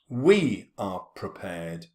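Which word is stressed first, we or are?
we. It starts stressed, with the stress on we. The line breaks the regular meter, showing unease. "It's got a totally different rhythm. ... it uh, begins with a stress"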